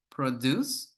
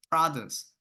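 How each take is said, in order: First: "produce" stressed on -DUCE, rising at the end; stress on second syllable. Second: "produce" stressed on PRO-, falling at the end; stress on first syllable. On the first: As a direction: say the verb "produce", weight on the last syllable. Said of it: "the stress falls on the second syllable". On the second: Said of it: "the stress falls on the first syllable". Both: Shown as a demonstration.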